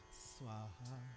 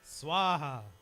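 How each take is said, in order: First: It is said low and weakly. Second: It is said loudly with vigor.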